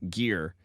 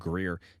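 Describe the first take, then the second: First: The name starts with a plain g sound. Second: The name starts with a g-r cluster. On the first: "It looks like Gear" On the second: "I'm saying Greer"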